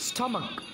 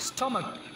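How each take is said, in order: No difference in how they are said.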